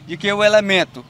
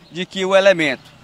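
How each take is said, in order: Both takes have the same delivery.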